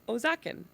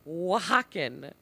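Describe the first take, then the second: First: The word begins with an 'oh' sound. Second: The word begins with a 'wah' sound. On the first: The speaker calls it wrong. "I pronounced it not out loud, like to people, but in my head, Ozakin. Because there's an O" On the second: The speaker calls it right. "have O when it's Oaxacan"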